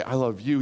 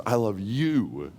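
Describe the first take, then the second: First: Said in the usual way. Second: "you" drawn out long and falling; slow down and land heavily on "you"; "I love you" with a lingering, weighted "you"; stress on YOU. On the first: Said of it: "God doesn't just say". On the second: Shown as a demonstration. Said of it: "He says".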